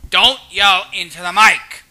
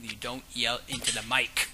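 First: Louder, emphatic telling-off; raised-voice scolding. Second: Said in the usual way. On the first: Pretend. Gamer reminding himself about the mic, raised-voice scolding. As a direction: scold yourself, raising your voice.

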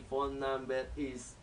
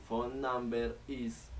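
No difference in how they are said.

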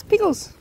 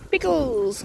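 First: "Pickles" short and high, falling at the end; quick high call. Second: "Pickles" near normal pitch, slightly stretched. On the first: Calling a dog for a treat. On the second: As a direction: say "Pickles" gently with a falling end. Calling the same dog once more. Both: Real, not acted.

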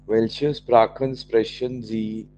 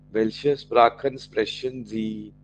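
Both takes have the same delivery.

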